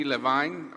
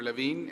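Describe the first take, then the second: First: Levine said as luh-VINE; pronunciation variant. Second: Levine said as luh-VEEN; pronunciation variant. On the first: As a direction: rhyme the end of Levine with "fine". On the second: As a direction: rhyme the end of Levine with "seen". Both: Shown as a demonstration. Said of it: "or Levine".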